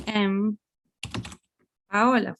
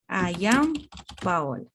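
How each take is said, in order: First: Said in the usual way. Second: "I am" said as two full, separate words; emphatic uncontracted I AM. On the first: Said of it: "I'm not gonna say". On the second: Shown as a demonstration. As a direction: give "am" its full vowel, then let the name fall. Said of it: "not contracted, it's emphasizing".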